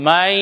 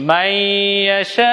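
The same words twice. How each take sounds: First: মাইয়াশা said short, ending cut off; stopped ending. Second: মাইয়াশা with the আ held very long and slow, rising at the end; long aa stretch. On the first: Teacher showing the pause form of মাইয়াশা. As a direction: clip মাইয়াশা short at the end. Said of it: "কারকে আমরা হসন্ত করে দেব". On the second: Quran teacher showing viewers the long আ in মাইয়াশা. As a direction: draw out মাইয়াশা slowly, long আ. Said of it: "এরকম আ টান হবে". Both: Shown as a demonstration.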